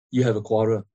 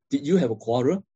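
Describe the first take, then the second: First: Settled statement, voice dropping on "quarrel"; statement intonation. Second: Questioning tune rising to "quarrel"; question intonation. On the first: Counselor reflecting someone's hard day, as a statement. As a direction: let "quarrel" fall, no question in it. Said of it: "That is a statement". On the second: Counselor checking on someone's hard day, asking it as a question. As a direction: ask it, lifting at the end on "quarrel". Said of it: "Now, that is a question". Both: Shown as a demonstration.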